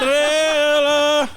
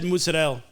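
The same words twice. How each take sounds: First: It is said with an exaggerated put-on flair. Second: It is said plainly, in a normal voice.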